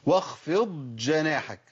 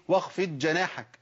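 First: واخفض جناحك slowly, ض held before the ج; واخفض with ض clear, not merged into ج; correct dad before jeem. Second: واخفض جناحك with ض merged into ج; واخفض said as waxfej, double ج; wrong merged dad. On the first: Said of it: "اقول واخفض جناحك". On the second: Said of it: "كتير ناس بيقول". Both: Shown as a demonstration.

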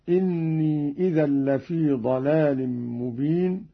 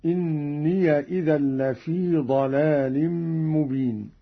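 First: Said in the usual way. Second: إني said as inniya, with the ya given a fatha joining into إذا, slowly; open ya in إني. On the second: Shown as a demonstration. Reciter showing students Qalun's reading, إني said as inniya. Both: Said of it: "بفتح الياء وصلا هكذا".

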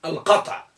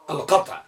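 Both takes have the same delivery.

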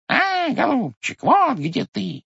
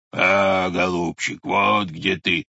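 First: Much higher, slow squeaky beak voice; squeaky bird beak. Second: Lower, slow bear roar. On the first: Bird's beak pecking the pot, high squeak. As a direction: squeak it like a tiny bird's nose. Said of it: "запищал птичий нос". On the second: Bear poking its snout out, slow low roar. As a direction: growl it out like a bear from behind a tree. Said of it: "заревел медведь". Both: Acted.

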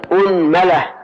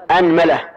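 First: أنملة said unmala, hamza with damma, mim with fatha. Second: أنملة said anmala, hamza with fatha and mim with fatha. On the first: Teacher shows students the second reading, أنملة with opening u. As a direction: round u-sound at the start of أنملة. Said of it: "ضم الهمزة وفتح الميم". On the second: Teacher shows students the first reading, أنملة with a-sounds. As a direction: open a-sound on both alif and mim in أنملة. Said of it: "نبدأ بفتح الهمزة وفتح الميم". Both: Shown as a demonstration.

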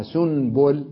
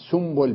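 First: سنبل as "sun-bul", with a clear n; spelt with nun. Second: سنبل as "sumbul", with an m; spelt with mim. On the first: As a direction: keep the n in سنبل. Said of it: "ولا أكتبها سنبل". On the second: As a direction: sound an m before b in سنبل. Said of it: "أكتبها سنبل بالميم". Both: Shown as a demonstration.

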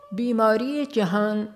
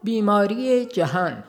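The two takes are said the same way.

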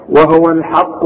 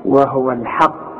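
First: وهو الحق with a heavy, thick lam, imitating the student's error; student's mistake. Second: وهو الحق said slowly and softly, with a light, thin lam; correct thin lam. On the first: Teacher imitates his student's mistaken reading. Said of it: "لا، غلط". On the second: Shown as a demonstration. Teacher gently models the correct reading. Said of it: "اللام مرققة دائمًا".

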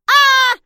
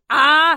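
First: Put-on very high, loud child's shriek; child's scream. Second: Loud threatening cry, less high; menacing yell. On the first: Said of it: "раздался детский крик". (пронзительный детский крик) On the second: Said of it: "снова грозное". (грозный громкий крик) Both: A narrator's reading.

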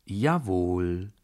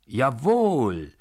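First: JAWOHL drawn out with a rising end; drawled. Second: JAWOHL shouted with a long stretched O; loud, higher, the O held long; full-force shout. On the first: Narrator answers the furious baron, drawled. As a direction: stretch the long O in Jawohl, unhurried. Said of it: "sagte ich gedehnt". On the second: Narrator suddenly defies the baron, drawn-out shout. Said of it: "schrie ich plötzlich aus voller Kraft und dehnte das O". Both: A narrator's reading.

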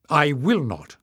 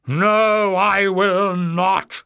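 First: Steady, firm refusal. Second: High, loud, furious shriek; enraged shriek. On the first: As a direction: refuse calmly but firmly. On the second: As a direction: shriek it out in a frenzy of rage. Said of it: "Warren shrieked in a frenzy of rage". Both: A narrator's reading.

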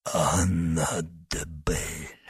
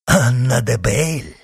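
First: Slow, low, soft dying whisper. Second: Loud, raised cry of recognition; exclaiming. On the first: Wounded man gives up the name, whispering. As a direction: breathe the name out slowly, weakly. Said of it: "прошептал раненый". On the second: Monk hears the name and exclaims. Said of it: "воскликнул монах". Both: A narrator's reading.

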